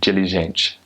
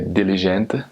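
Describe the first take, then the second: First: It is said with a Brazilian Portuguese accent. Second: It is said with a European Portuguese accent.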